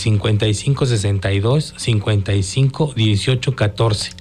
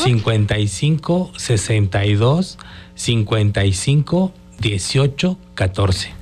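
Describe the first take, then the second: First: It is said at normal speed. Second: It is said a little more slowly.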